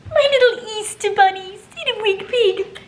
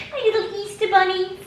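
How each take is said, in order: First: Much higher and louder croon. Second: Much higher crooning. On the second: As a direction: croon to the bunnies. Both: Real, not acted. Cooing at dogs.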